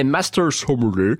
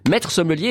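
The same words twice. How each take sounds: First: Sommelier in a mock English accent, low; cheap English accent. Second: Said in the usual way. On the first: Shown as a demonstration. Presenter showing off the title, cheap English accent. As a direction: put on a tuppenny English accent. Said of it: "je le prononce avec cet accent, euh, anglais". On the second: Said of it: "qui est maître sommelier".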